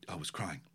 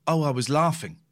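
First: Very soft, low imitated admission; acting out a small, subdued reply; hushed confession. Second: Louder, casual imitated reply; acting out an unbothered admission; breezy correction. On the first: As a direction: confess it quietly, as retold. Acts friend's tearful admission. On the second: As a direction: toss it out openly, as retold. Acts friend's breezy later correction.

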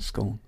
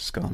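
First: Scone said skohn, with a long o; scone with the long vowel of stone, the way it is said; rhyming with stone. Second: Scone said skahn, with a short open o; scone with the vowel of gone, the way it is not said; rhyming with gone. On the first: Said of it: "I don't pronounce it scone anyway". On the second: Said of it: "I pronounce it scone". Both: Shown as a demonstration.

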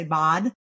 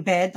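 First: "bod" with an open ah in place of eh; vowel distortion. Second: Said in the usual way. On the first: Shown as a demonstration. Therapist showing listeners a child's vowel error, vowel distorted in "bod". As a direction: say "bod", jaw dropped on the vowel. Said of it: "they'll say bod". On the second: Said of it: "Instead of saying bed, like the eh vowel".

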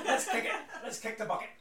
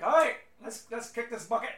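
First: Loud Scottish dwarf, laughing; Scottish accent. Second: Loud, high Scottish dwarf cheer; rally the crew in a Scottish accent. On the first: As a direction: laugh through a Scottish rally cry. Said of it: "So he's like". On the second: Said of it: "I don't have the best Scottish accent". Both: Acted.

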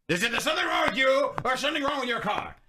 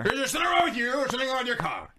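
First: Lightly voiced grumpy old man; a hint of a cranky old guy, pitched up; very old faint voice. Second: Put-on fast shouted grumpy old man; very old faint voice. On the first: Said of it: "Let me get in the character". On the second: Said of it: "Let's do it over again".

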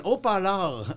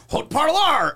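First: "haut parleur" with silent h and French r; French pronunciation. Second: Loud, higher French with hard English r; heavy Anglo accent. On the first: Crew correcting the Anglo actor, "haut parleur" said the French way. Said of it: "They're like, "No, it's an haut parleur". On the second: Actor failing the correction, stubbornly heavy Anglo accent. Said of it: "that's a heavy Anglo accent". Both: Retold or imitated.

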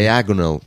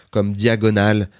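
First: "diagonal" said the English way, stress on the second syllable; "diagonal" in an English accent, DI-ag-o-nal. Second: "diagonale" said the French way, dia-go-NAL-e; "diagonale" with French vowels, even stress. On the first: Showing the host the English word, says "diagonal" in English. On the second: Speaking French to the host, says "diagonale" the French way. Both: Shown as a demonstration. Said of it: "Mais tu le dis".

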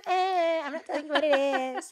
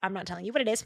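First: Higher, sing-song teasing "I'm not telling you"; teasing refusal. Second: Said in the usual way. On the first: Shown as a demonstration. Host teasing podcast listeners about a secret phrase, playful sing-song. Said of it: "I'm so naughty".

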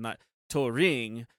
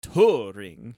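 First: "Turing" said slowly, the wrong way round; wrong stress. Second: "Turing" with the stress on the U, loud, rising; right stress. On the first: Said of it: "you put the emphasis on the R". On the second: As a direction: punch the U in "Turing". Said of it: "the U you're supposed to put the emphasis on". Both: Shown as a demonstration.

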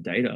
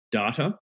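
First: "data" said with an AY, as DAY-tuh; American pronunciation. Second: "data" said with an AH, as DAH-tuh; Australian pronunciation. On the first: Trying the American way for colleagues, "data" as DAY-tuh. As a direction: say "data" with first vowel as in day. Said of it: "It's American". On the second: Naming the word colleagues mocked, "data" as DAH-tuh. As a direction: say "data" with a long first AH. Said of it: "people mocked me a lot about it". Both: Shown as a demonstration.

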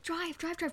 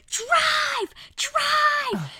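First: Hushed urgent drive. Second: Very high, very loud panicked scream; screamed drive. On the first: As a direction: keep it down so the sleeping boy won't wake. Quiet so sleeping Fred stays asleep. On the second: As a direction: scream it at the driver to get away. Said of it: "I screamed". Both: Retold or imitated.

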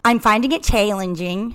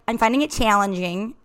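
First: Put-on Minnesota accent that slid South African; "challenging" with a South African twang instead of Minnesota vowels; botched Minnesota accent. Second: Put-on retry in a Minnesota accent, "challenging" with long flat Minnesota vowels. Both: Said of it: "more South African than I meant".

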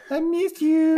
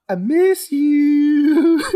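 First: High falsetto I miss you, quicker; creepy high whine. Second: Slow, high, drawn-out creepy plea; a long, wavering falsetto I miss you; creepy high whine. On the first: Shown as a demonstration. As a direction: copy the creepy line in a thin high voice. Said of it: "Just like that". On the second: Retold or imitated. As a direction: stretch it out high and eerie like a creepy mime. Creepy mime line retold.

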